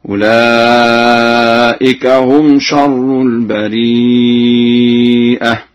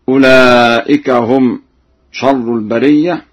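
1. في الكلمة الأخيرة همزة بعد ee. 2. لا توجد همزة في الكلمة الأخيرة.

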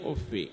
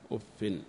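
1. الفاء الأخيرة تأخذ كسرة بدون نون. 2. الفاء الأخيرة تأخذ كسرة مع نون. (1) "بكسر الفاء من غير تنوين" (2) "بكسر الفاء مع تنوينها"

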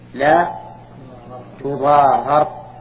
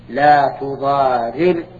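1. الراء الأولى فيها صوت 'a'. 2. الراء الأولى فيها صوت 'i'. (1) "وإذا قلنا إنها مبنية للفاعل المفعول صار فكل تغام هكذا" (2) "إذا قلنا إن تضار مبنية للفاعل صار فتح الإدغام هكذا"

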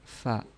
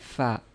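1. Suku kata itu ringan dan tipis, seperti fa. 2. Suku kata itu ringan dan tipis, seperti fa.

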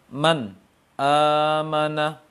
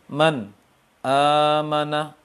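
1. Ada jeda yang memisahkan n dari kata berikutnya. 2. Ada jeda yang memisahkan n dari kata berikutnya.

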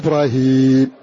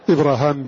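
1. حرف المدّ بعد الهاء ياء. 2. حرف المدّ بعد الهاء ألف. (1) "ومنهم من غيره فقال إبراهيم" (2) "بمد الألف بعد الهاء"

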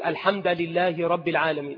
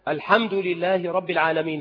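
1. تنتهي كلمة al-hamd بالحركة 'a'. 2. تنتهي كلمة al-hamd بالحركة 'u'.

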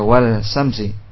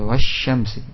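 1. L diucapkan sebelum bunyi sh. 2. L hilang melebur ke dalam bunyi sh yang dobel. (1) "tidak wal-syamsi" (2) "tapi wasy-syamsi"

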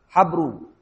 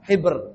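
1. Vokal pertama adalah 'a' terbuka. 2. Vokal pertama adalah 'i' tertutup. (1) "bi fathil ha" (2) "dikasrohkan haknya, itu lebih fasih"

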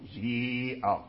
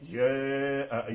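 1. الصائت الطويل كسرة خالصة. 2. الصائت الطويل يميل قليلا من الفتح نحو الكسر. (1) "هذا كسر خالص" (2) "إمالة صغرى"

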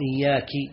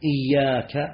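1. تُنطق الكلمة بتغيير في إحدى حركاتها. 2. تُنطق الكلمة بحركاتها الأصلية. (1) "هذا لحن إيش؟ يحيل المعنى" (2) "مثل إياك نعبد"

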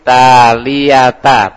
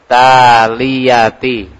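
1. Kata itu berakhir dengan suku kata 'ta'. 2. Kata itu berakhir dengan suku kata 'ti'. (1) "tapi ta" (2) "Bukan ti"

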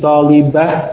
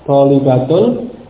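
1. Kata ini berakhir dengan bunyi h yang diam. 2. Kata ini berakhir dengan akhiran -tun yang utuh. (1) "Sehingga menjadi talibah" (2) "ini diganti menjadi huruf ha"

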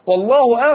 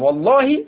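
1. تنتهي الكلمة بضمة. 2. تنتهي الكلمة بكسرة. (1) "الثانية قال والله بالرفع" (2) "يبقى الأولى مخفوضة لأنها قسم"

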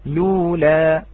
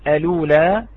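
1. تبدأ الكلمة مباشرة بصوت اللام. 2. تبدأ الكلمة بهمزة قبل الحركة. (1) "إذا لم نأتي بهذه الهمزة واعتدينا بالعارض ... فنقول لولا" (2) "إذا أثبتنا الهمزة على الأصل وعلى الرسم نقول الأولى"

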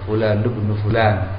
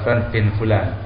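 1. Kata tengah diucapkan lengkap sebagai 'ibnu'. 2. Kata tengah disingkat menjadi 'bin'. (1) "Fulan ibnu Fulan itu ya" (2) "Jadi bukan"

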